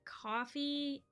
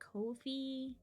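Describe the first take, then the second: First: The first vowel sounds like the one in 'cough'. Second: The first vowel sounds like the one in 'go'. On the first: The speaker calls it wrong. "it's not coffee" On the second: The speaker calls it right. "it's Kofi"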